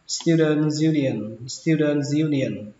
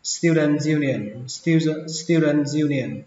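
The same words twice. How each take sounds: First: Said in the usual way. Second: "student" with a different vowel in the weak "dent" syllable; "student union", second syllable like Vietnamese "đần"; second pronunciation. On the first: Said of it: "Cách đọc thứ hai". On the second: Shown as a demonstration. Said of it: "chữ đờn này các bạn đọc thành chữ đần".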